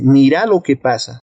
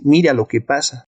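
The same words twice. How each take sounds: First: "Mira" stressed on its last syllable, mi-RA; regional stress shift. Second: Said in the usual way. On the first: Shown as a demonstration. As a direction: say "Mira" as voseo mi-RÁ. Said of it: "en otras regiones dicen". («Mira» con acento en la última sílaba: mi-RÁ) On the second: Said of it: "la pronunciación de una palabra varía".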